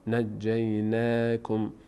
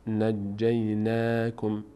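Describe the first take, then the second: The two takes are said the same way.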